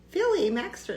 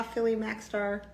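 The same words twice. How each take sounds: First: "Philly Maxstar" said higher, as a question; puzzled reread. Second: Said in the usual way. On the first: Shown as a demonstration. Rereading a viewer's name in the live chat, puzzled. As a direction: reread the name, unsure it's right.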